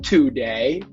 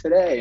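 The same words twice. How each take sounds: First: The first vowel is clear and full. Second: The first vowel is short and reduced. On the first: "It's not today" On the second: "most of the time going to say today in casual conversations"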